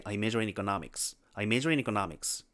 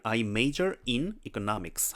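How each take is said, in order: First: Major in을 붙여 연음으로 빠르게 흘려 읽기; 앞말이 뭉개지도록 이어 읽기; linked speech. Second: Said in the usual way. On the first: Shown as a demonstration. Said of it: "안 들려요". (연음으로 흘려 읽기) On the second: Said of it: "하면 들리는데".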